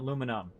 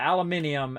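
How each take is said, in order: First: The word is said with four syllables. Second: The word is said with five syllables. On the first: This is how people in the United States say it. "as opposed to" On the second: This is how people from other countries say it. "That's how they say it"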